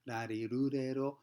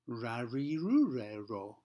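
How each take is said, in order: First: The consonant is made with the tongue mid-mouth. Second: The consonant is made with the tongue curled back. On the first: "rarirurero is uh, in the middle of that area" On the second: "curling the tongue up and back"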